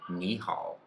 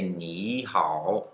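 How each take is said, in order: First: The first syllable rises, then the second dips. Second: Both syllables carry a dipping third tone. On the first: The speaker calls it right. "the first third tone becomes a second tone" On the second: The speaker calls it wrong. "you don't say ni hao"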